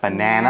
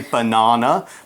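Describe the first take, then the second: First: It is said with an American accent. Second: It is said with a British accent. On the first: "Americans, I guess, would more say like banana" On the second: "I'm pronouncing the word in a more British way"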